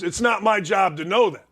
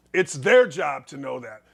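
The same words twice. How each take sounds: First: Said in the usual way. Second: "their" hit hard, lower and falling; stress on their. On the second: Shown as a demonstration. Host shifting blame to the team, stress on "their". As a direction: lean on the word "their", not "my".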